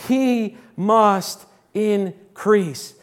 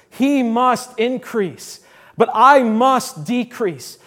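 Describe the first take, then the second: First: Slow, stressing He; drawn out, every word weighed; emphatic declaration. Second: Slow, weight on He and I; drawn out, pressing each word; emphatic declaration. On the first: Preacher quoting John the Baptist, slow and emphatic. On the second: Preacher repeating the verse to the church, slower and firmer. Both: Shown as a demonstration. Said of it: "this emphatic declaration".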